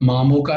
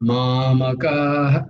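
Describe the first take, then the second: First: The word ends cleanly on the vowel. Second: The word ends with a light breathy release. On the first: The speaker calls it wrong. "মামকা নয়" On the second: The speaker calls it right. "মামকাঃ কিন্তু এখানে হা বলছি না আমি"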